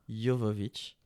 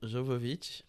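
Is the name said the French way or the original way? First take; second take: original; French. First: The name is said in its original, non-French way. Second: The name is said in the usual French way. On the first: This is how the name is properly said. "théoriquement, ça se dit Jovovich" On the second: This is how everyone in France says it. "je vais dire Jovovich"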